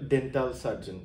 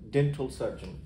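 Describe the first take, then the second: First: The final syllable of dental does not sound like 'ol'. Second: The final syllable of dental sounds like 'ol'. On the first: The speaker calls it wrong. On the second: The speaker calls it right.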